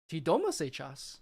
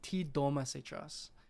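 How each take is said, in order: First: It is said with question intonation. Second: It is said with statement intonation.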